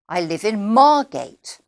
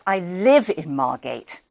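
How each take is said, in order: First: The stress falls on the word Margate. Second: The stress falls on the word live. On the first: It gives the place as new information. "my job and where I live. So those are the words that I stressed" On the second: It contrasts living there with working there. "sometimes we might need to change the stressed word"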